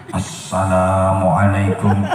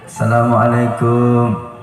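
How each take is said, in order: First: It is said in a preacher's sermon tone. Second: It is said like calling at a door. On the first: It opens a religious talk. "kalau orang ceramah kayak saya, ya beda lagi" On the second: It announces arrival at someone's home. "kalau namu ke rumah orang itu gaya salamnya jangan kayak M C, beda lagi"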